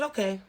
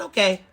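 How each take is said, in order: First: Quiet, calm, no aggression; a hushed, controlled okay. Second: Said in the usual way. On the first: Retold or imitated. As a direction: let it go softly, no fight. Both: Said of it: "I didn't hang it up with no aggression".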